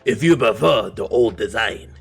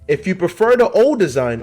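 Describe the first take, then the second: First: It is said in an exaggerated put-on voice. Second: It is said in the speaker's ordinary voice.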